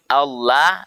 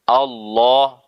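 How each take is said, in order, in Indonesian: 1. L-nya tipis dan ringan di mulut. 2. L-nya tebal dan penuh di mulut. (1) "itu tipis" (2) "harus Allah tebal"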